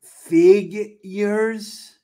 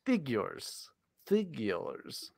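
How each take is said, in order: First: FIGURES high, loud and stretched out in two parts; over-enunciate "figures" as a long, raised question; over-enunciated. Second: FIGURES said softly with a clear "fig-yers" and falling end; correct enunciation demo. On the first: Exasperated retry of the criticised word, over-enunciated. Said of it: "say it again with the enunciation". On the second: Showing the co-host the proper word, clearly enunciated. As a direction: model "figures" softly and precisely. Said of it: "As opposed to, uh, what you said". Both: Shown as a demonstration.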